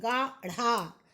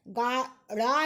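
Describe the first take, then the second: First: गाढ़ा said as ɡaɽa, with a flapped ढ़; गाढ़ा, tongue flapped on ढ़, carefully; correct pronunciation. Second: गाढ़ा said as ɡaɖa, with a hard ड stop, slow; गाढ़ा with a stopped ड instead of a flap; wrong pronunciation. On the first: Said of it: "गाढ़ा नहीं, गाढ़ा". (गाढ़ा में ढ़ का सही उच्चारण) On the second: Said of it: "गाढ़ा नहीं". (गाढ़ा को ड की तरह बोलना, गलत) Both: Shown as a demonstration.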